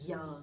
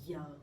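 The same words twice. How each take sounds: First: The consonant sounds like an English y. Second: The consonant sounds like an English y.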